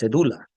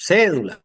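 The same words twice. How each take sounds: First: The stress falls on a later syllable. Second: The stress falls on the first syllable. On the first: The speaker calls it wrong. "no es cédula" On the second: The speaker calls it right. "una cédula de identidad con acento"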